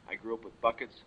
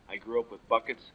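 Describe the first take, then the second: No difference in how they are said.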